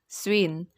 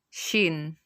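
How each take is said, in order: First: The word starts with an s-w sound. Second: The word starts with a sh sound. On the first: It follows the written spelling. The speaker calls it wrong. "if you read this, you will pronounce this as swin" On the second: It is how the word is really said. The speaker calls it right. "But the proper pronunciation of this is shin"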